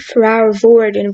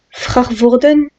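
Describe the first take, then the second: First: The R is an English-style soft R. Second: The R is a French-style throaty R. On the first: "the English way" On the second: "the French way"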